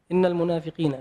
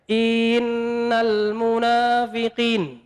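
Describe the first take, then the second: First: The opening syllable is said directly, without stretching. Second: The opening syllable is stretched out too long. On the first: The speaker calls it right. "Harusnya langsung innal ya" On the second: The speaker calls it wrong. "In baca innya saja dipanjangkan"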